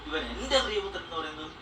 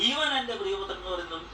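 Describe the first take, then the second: No difference in how they are said.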